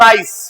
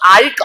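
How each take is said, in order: First: The word ends with an s sound. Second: The word ends with a k sound. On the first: The speaker calls it right. "Because there is E after C" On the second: The speaker calls it wrong. "not k"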